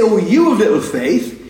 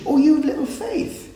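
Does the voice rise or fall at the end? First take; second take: fall; rise. First: It is said as a falling statement. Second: It is said as a rising question.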